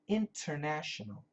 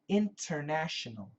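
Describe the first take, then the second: First: Every syllable is pronounced fully and carefully. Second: Every syllable is pronounced fully and carefully.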